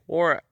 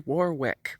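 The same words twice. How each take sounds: First: The name is said mumbled, as if through marbles. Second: The name is said crisply and clearly. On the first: The speaker calls it right. "Like you've got a mouthful of marbles" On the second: The speaker calls it wrong. "Don't say Warwick"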